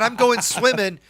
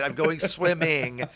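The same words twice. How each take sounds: First: The -ing endings are clipped to -in'. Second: The -ing endings are said in full. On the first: The speaker calls it wrong. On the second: The speaker calls it right.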